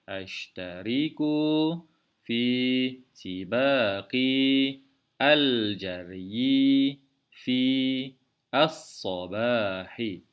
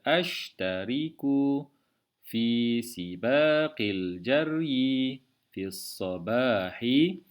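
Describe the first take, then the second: First: Each word is said separately with many small stops. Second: The words run together smoothly with few stops. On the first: The speaker calls it wrong. "Jika tidak disambungkan ... Terdapat banyak tempat yang ber, diberhentikan bacaan ... tidak fasih ataupun tidak lancar" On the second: The speaker calls it right. "kurang tempat berhenti dan juga lebih lancar"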